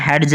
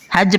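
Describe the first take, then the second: First: हेड्ज with an audible d stop before the j; D wrongly pronounced. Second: हेज said with the D dropped, straight into j; silent D. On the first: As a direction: sound out the D in हेड्ज, as "hed-j". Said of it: "हेड्ज नहीं". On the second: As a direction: say हेज as "hej", no d before the j. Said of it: "हेज पना है". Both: Shown as a demonstration.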